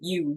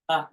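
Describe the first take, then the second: First: It is said like the word you. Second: It is said as a short uh. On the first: The speaker calls it wrong. "they'll say you" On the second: The speaker calls it right. "but usually it's uh"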